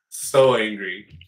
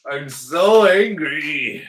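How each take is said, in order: First: Mock seething. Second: Hammed-up anger.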